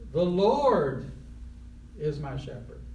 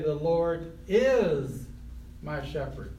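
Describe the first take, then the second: First: The word Lord carries the stress. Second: The word is carries the stress. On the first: It is the Lord, no one else, who shepherds. "put the emphasis on Lord" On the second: The shepherding is happening right now. "Present tense, right now"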